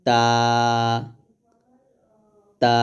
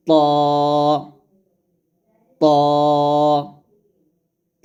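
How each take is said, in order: First: তা thin and light, tongue at the upper tooth roots; Arabic letter demo. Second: ত thick and heavy, same tongue place; Arabic letter demo. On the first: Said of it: "তাটা পাতলা করে বলতে হবে এরকম". (তা পাতলা করে) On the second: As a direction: make ত full and heavy. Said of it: "ত মোটা করে বলতে হবে". (ত মোটা করে) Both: Shown as a demonstration.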